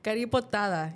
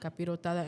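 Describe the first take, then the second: First: The second syllable is 'ri', the third 'po'. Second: The second syllable is 'pi', the third 'ro'. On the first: The speaker calls it wrong. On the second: The speaker calls it right.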